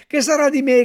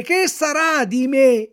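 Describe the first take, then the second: First: High, loud anguished cry; wailing cry. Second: Loud, slow drawn-out lament on me; slow despairing wail. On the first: Puppet howling in despair over his friend, high loud cry. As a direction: bawl the question out. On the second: Puppet bewailing his fate, slow drawn-out wail. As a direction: stretch it out in misery. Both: A narrator's reading. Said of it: "continuava a piangere, a berciare".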